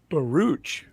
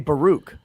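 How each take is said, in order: First: The final ch sound is strongly pronounced. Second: The final ch sound is light. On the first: This is how someone else said the name. "is how he kept saying it" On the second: This is how the speaker naturally says the name. "how I would naturally say"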